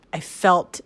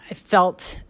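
The two takes are said the same way.

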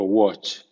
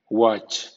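First: "watch" with a rounded o, "wotch". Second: "watch" with an open ah, "wahtch". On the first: Teacher giving second option for W A words, "watch" with rounded "wo". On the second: Teacher giving first option for W A words, "watch" with open "wa". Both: Shown as a demonstration. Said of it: "suena wa o wo".

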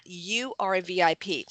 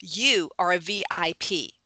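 First: Said in the usual way. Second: Whispered. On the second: Acted. Telling people they are VIPs.

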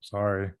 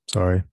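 First: Said in the usual way. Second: Deliberately loud repeat; louder apology. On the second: Real, not acted. Husband told he is whispering, apologising loudly. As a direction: say it much louder, to be heard.

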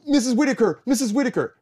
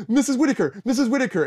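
First: High, loud call across the stage; calling out loudly. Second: High, loud repeated call; calling out loudly. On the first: Student calling out to teacher on stage, loud and high. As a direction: call out to the teacher to get her attention. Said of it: "which I was not calling her by her rehearsal name". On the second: Student calling out to teacher again, loud and high. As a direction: shout her name to catch her. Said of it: "I was like". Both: Retold or imitated.

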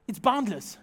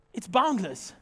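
The two takes are said the same way.

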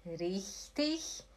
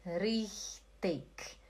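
First: Richtig softly, ending like ich. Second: Richtig softly, ending in k; hard k ending. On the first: Teacher showing both options work, soft ch ending. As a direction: let richtig end in a soft hiss. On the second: Teacher showing both options work, hard k ending. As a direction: close richtig on a crisp k. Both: Shown as a demonstration. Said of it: "Pode ser os dois".

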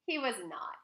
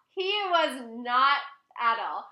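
First: Said in the usual way. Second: "He was not" drawn out slow and loud; emphatic repeat. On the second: Real, not acted. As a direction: stretch and punch "He was not", then land "at all".

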